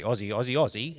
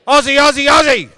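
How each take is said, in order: First: Said in the usual way. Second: High, rapid-fire crowd chant at full volume; loudest possible shout. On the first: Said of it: "I'll say". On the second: Real, not acted. Leading the audience's Aussie chant, shouting loudly. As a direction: shout it out to rally the room. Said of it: "In your loudest possible voice".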